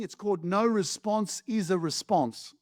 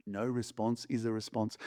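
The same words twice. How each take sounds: First: Said in the usual way. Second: Much lower and softer; a deep, quiet echo of the line; low, soft repeat. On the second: Shown as a demonstration. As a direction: drop it low and soft so it sinks in. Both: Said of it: "repeated lower and softer".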